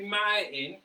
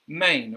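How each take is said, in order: First: The word is broken into two separate parts. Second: The word is blended smoothly as one unit. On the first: The speaker calls it wrong. "we don't say ma in" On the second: The speaker calls it right. "But instead we say main"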